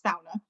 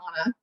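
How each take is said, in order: First: The first syllable rhymes with cow. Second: The first syllable does not rhyme with cow. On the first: The speaker calls it right. "the first syllable rhymes with like cow" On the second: The speaker calls it wrong. "most Americans would say the sauna"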